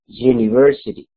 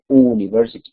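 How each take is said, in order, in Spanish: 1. Empieza con un sonido de consonante 'y'. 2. Empieza con un sonido de vocal normal. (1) "suena como una consonante" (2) "no dice university como una vocal"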